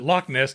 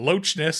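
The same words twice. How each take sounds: First: Loch ends with a k-like sound. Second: Loch ends with a ch sound as in church. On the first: The speaker calls it right. "It wasn't Loch Ness" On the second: The speaker calls it wrong. "they pronounced the C H"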